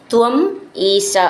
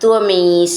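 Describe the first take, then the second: First: The two words are said separately. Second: The two words merge into one word.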